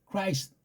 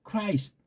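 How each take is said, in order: The two takes are said the same way.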